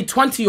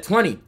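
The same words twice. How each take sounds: First: "twenty" with the second t sounded; local pronunciation. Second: "Twenty" with a softened middle t; American pronunciation. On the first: Storyteller showing how they say it over there, "twenty" with its t. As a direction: say "twenty" with a clear middle t. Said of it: "They say twenty over there". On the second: American answering the request to say it, "Twenty" with soft t. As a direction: ease off the second t in "Twenty". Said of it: "mocking me". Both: Shown as a demonstration.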